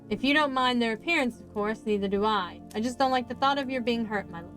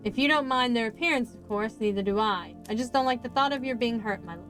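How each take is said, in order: First: It is read in another character's voice. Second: The same.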